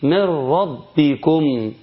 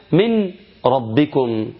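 First: Slow chant of "من ربكم" as "mir-rabbikum"; N of "من" vanishes into a doubled R in "ربكم"; recited with idgham. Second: "من" with a clear N, pause, then "ربكم"; words pronounced separately. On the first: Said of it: "وأنا بقرأها في التلاوة الإيه؟". (تلاوة "من ربكم" بإدغام النون في راء مشددة) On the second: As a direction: slowly say "من ربكم" as "min, rabbikum", unmerged. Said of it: "من عبارة عن ميم مكسورة وحرف النون". (نطق "من ربكم" ببطء مع إظهار النون) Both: Shown as a demonstration.

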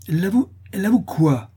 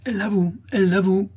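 First: High, loud alarmed question; half-frightened cry. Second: High-pitched, incensed accusation; angry outcry. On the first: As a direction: ask in startled alarm. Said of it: "s'écria madame Dubreuil à demi effrayée". (question criée, à demi effrayée) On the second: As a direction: cry it out like an outraged crowd. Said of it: "s'écrièrent les laboureurs courroucés". (exclamation courroucée, très aiguë) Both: A narrator's reading.

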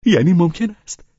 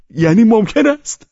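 First: High, loud, delighted question; unconcealed glee, pitched way up; joyful cry. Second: Very high, loud elated shout; overjoyed yell at full pitch; louder joyful shout. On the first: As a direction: cry out in open joy, rising at the end. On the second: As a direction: shout it with open delight, rising at the end. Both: A narrator's reading. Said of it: "شادیش را مخفی نکرد و فریاد کشید".

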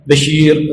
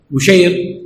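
First: بشير said "Bashir", a after the b; fatha on the ba. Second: بشير said "Bushayr", u after the b; damma on the ba. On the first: Teacher repeating the name contrast, fatha reading "Bashir". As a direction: say بشير as ba-SHEER. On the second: Teacher repeating the name contrast, damma reading "Bushayr". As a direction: say بشير as bu-SHAYR. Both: Shown as a demonstration. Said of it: "تغيير الشكل في الكلمة".

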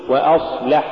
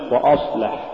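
First: Said in the usual way. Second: وأصلح with a dark, thick أ before the ص; wrongly heavy hamza. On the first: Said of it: "قل". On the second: Shown as a demonstration. Teacher warning against an error, heavy أ in وأصلح. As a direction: thicken the vowels opening وأصلح. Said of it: "إذا جاور مرقق مفخما".

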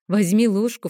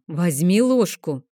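First: Said in the usual way. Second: Slow, louder stern order; a mother insisting now, firmly; firm motherly command; stricter demand. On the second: Acted. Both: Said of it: "потребовала я строже".

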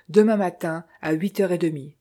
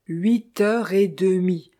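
First: Said in the usual way. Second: "Huit heures et demie" slow, each word weighted; slow, insistent "Huit heures et demie"; firm correction. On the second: A narrator's reading. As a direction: spell out "Huit heures et demie" deliberately, brooking no argument. Firmly correcting Rani's nine thirty.

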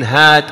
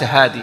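First: "هاد" drawn out, without final ee; final ya dropped. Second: "هادي" ending in long ee; final ya kept. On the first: Teacher showing the rule, "هاد" without long final ee. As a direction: say "هاد" with the ya cut off. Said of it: "تحذف الياء". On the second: Teacher showing the rejected form, "هادي" with long final ee. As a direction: say "هادي" as haadee. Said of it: "وليس هادي". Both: Shown as a demonstration.

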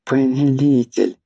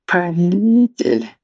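First: Pleading call. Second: High, piteous wailing cry; pitiful wail. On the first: First call to master. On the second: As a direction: wail it like a groveling servant. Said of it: "жалко стенал Марквин". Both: Acted.

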